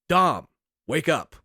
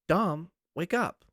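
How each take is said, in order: First: It is yelled in Marcus Phoenix's voice. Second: It is said in a soft woman's voice.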